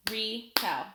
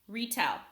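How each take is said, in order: First: "Retell" in two separate beats, Re, then tell; split into syllables. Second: Said in the usual way. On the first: Shown as a demonstration. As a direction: clap out "Retell" with a gap between syllables. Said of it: "I'll clap it out". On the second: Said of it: "Listen as I say a word".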